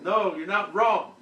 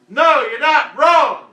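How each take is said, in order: First: It is said fairly quietly. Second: It is said loudly.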